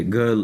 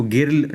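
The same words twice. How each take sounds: First: गर्ल with a neutral "ur" vowel; zabar vowel. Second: गिर्ल with short "i" and sounded r; wrong "i" vowel. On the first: Teacher giving the correct reading, गर्ल with "ur". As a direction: say गर्ल as "gurl". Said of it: "गर्ल पढ़ेंगे". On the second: Teacher warning against misreading girl, गिर्ल with "i". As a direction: mispronounce girl as गिर्ल, "gir-l". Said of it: "गिर्ल नहीं पढ़ेंगे". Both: Shown as a demonstration.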